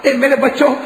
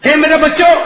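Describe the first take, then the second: First: Said in the usual way. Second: High, louder grieving call; loud lament. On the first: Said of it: "repeated address, second louder". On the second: Acted. Father calling his dead children, high loud lament. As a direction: cry out to the dead sons. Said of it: "repeated address".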